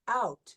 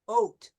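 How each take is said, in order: First: The vowel is a wide open 'ow' glide. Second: The vowel sounds raised, closer to 'oat'. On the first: "they don't pronounce the O U sound like we do, most people in America" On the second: "In Canadian English, in many parts of Canada, they would say it more like uh"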